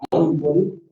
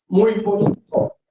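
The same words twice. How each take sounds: First: Said in the usual way. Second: "Muy bonito" as an exclamation, higher on MUY. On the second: Shown as a demonstration. Teacher showing what an exclamation mark adds, "Muy bonito" exclaimed. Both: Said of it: "el signo de admiración".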